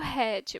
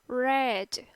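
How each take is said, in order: First: The r is a strong throaty sound. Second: The r is a curled-back retroflex sound. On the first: The speaker calls it wrong. "não como red" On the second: The speaker calls it right. "mas seria como red"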